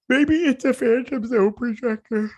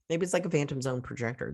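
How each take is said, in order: First: Very high, loud squeak; high squeaky voice. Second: Said in the usual way. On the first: Real, not acted. Viewer guessing what the device is, high squeaky voice. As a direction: squeeze it out way up high. Odd squeaky take, repeated after pardon me.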